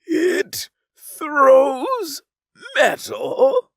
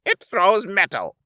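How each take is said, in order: First: "It throws metal" spaced out, each word hit high and loud; every word enunciated. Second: A huffy, raised little retort; huffed. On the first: Alien repeats the twin's answer, enunciating mockingly. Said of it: "He enunciated every word". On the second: Twin huffing at the alien's question. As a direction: snap it back, a bit put out. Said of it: "the other huffed". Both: Acted.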